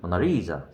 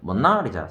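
First: The stress is on the third syllable. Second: The stress is on the second syllable. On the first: "상음절은" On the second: "이음절은"

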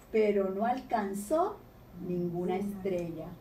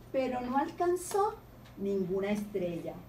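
Both takes have the same delivery.

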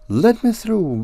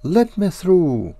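First: It is said faster still. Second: It is said a little faster.

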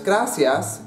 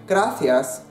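First: The c is pronounced as an s sound. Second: The c is pronounced as a th sound. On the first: "in Mexican Spanish" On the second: "in European Spanish"

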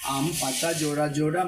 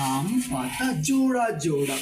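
First: It is recited in a flat, rattled-off way. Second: It is recited in a lively, expressive way. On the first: The speaker calls it wrong. "কিন্তু তার ধরনটা থাকে এরকম" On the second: The speaker calls it right. "আমরা আবৃত্তিটাকে আরো চমৎকার করতে পারি"

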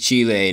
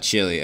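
First: The name is said with a Spanish pronunciation. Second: The name is said with an English pronunciation. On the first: This is how people living in the country say it. The speaker calls it right. "so it is Chile" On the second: This is how outsiders tend to say it. The speaker calls it wrong. "not Chile"

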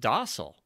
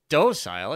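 First: It is said with the American pronunciation. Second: It is said with the Canadian pronunciation. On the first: This is the pronunciation used at home. The speaker calls it right. "It's pronounced docile" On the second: It echoes how someone on television said it. The speaker calls it wrong. "I remember when Kirk said docile"

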